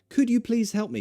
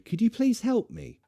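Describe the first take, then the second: First: It is spoken quickly and casually. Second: It is spoken carefully and formally. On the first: The speaker does not need to be polite. "this is speaking quickly. This is not formal" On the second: The speaker is being polite to a stranger. "Formal is this"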